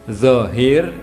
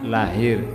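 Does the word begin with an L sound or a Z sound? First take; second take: Z; L. First: The word begins with a Z sound. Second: The word begins with an L sound. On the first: "zo itu susah" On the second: "maka zo menjadi L"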